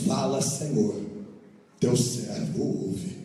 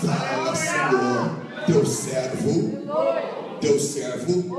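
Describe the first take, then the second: First: Low and slow, hushed reverence; calm reverent answer. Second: Loud dragged-out cry, stretching teu servo; loud hammed-up answer. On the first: Eli teaching Samuel how to answer God, low slow and reverent. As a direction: answer humbly, slowly. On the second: Preacher mocking a clumsy answer to God, loud and drawn out. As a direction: overdo it, bellowing the reply. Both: Shown as a demonstration. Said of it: "diga dessa maneira".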